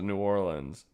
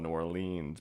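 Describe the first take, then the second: First: It uses the Southern US pronunciation. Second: It uses the Northern US pronunciation. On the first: This is how people in the South say it. "Everyone in the South calls it" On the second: This is how people up north say it. "up north they call it ... because E A should have an E sound"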